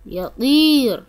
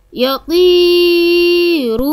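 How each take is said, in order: First: Said in the usual way. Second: يطير stretched slowly, higher and louder, heavy ط; slow emphatic ط. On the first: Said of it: "طريقة نطق". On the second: Shown as a demonstration. Teacher showing the heavy ط in يطير, slow and loud. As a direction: draw out يطير leaning on the ط. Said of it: "طريقة نطق حرف الطاء".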